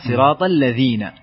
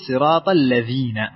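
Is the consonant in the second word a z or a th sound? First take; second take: th; z. First: The second word has a th sound. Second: The second word has a z sound. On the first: The speaker calls it right. "زي أعوذ" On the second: The speaker calls it wrong. "لما تقول الذين فأنت ... استبدلت حرف الذال"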